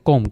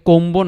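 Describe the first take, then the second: First: The b is silent after the m. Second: The b is pronounced after the m. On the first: The speaker calls it right. "বি উচ্চারিত হয়নি" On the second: The speaker calls it wrong. "কোম্বো না কিন্তু"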